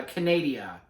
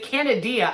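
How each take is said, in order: First: "Canadia" with a long stressed NAY in the middle; imitated mispronunciation. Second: "Canadia" guessed another way, high and loud; alternative mispronunciation. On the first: Quoting RuPaul's slip to viewers, imitated mispronunciation. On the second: Retold or imitated. Trying to recall how RuPaul said it, alternative mispronunciation. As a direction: try "Canadia" as a second, louder guess at the slip. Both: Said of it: "how she said it".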